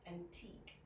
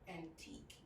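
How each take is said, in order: No difference in how they are said.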